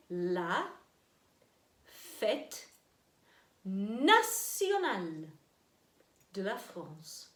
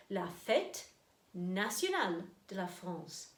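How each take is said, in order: First: La fête nationale de la France broken up slowly; slow model phrase. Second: La fête nationale de la France in French; French phrase. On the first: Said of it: "Répétez". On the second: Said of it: "See if you can say it with me". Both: Shown as a demonstration.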